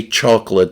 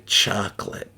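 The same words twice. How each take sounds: First: "chocolate" with a rounded AW vowel; East Coast pronunciation. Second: "chocolate" with an open AH, lower and softer; non-East Coast pronunciation. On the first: Shown as a demonstration. Streamer showing what non-East Coasters don't say, East Coast "chocolate". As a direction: say "chocolate" as "CHAWK-lit". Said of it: "I know they don't say chocolate". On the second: Retold or imitated. Streamer mimicking non-East Coasters, their open-vowelled "chocolate". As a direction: say "chocolate" as "CHAHK-lit". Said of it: "they say chocolate".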